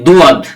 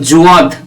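First: It starts with a plain d sound. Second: It starts with a z sound. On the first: "দুয়াদ হবে না, এটা ভুল" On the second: "জুয়াদও হবে না"

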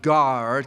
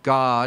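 First: The word is said carefully, clearly as guard. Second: The word is said casually, sounding like God. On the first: "I need to say it with an emphasis" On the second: "if I say it the way I normally say it, it sounds like God"

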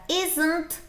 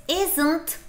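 No difference in how they are said.

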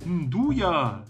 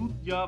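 First: The word starts with an nd sound. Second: The word starts with a plain n sound. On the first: The speaker calls it right. "das D ist ja vor dem U" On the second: The speaker calls it wrong. "was ich total falsch ausspreche"

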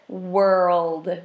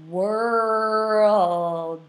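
First: The word is said at a quicker pace. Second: The word is said slowly and drawn out. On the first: "let's speed it up a little bit" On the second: "We're going to go slow"

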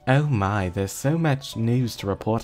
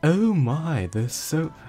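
First: It is said in the speaker's normal voice. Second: It is said in an imitation of Mettaton's voice.

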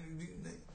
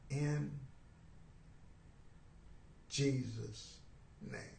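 First: It is rushed through quickly. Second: It is said very slowly.

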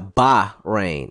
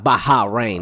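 First: The H blends in and is not sounded separately. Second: The H is sounded as its own separate sound. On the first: The speaker calls it right. "You don't pronounce the H separately" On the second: The speaker calls it wrong. "Not Bahrain"

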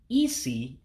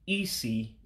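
First: The word is said on a high tone. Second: The word is said on a lower tone. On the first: It means head. "pronouncing isi real high in a high tone to say head" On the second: It means blind. "when I said isi for a blind person, I dropped my tone"

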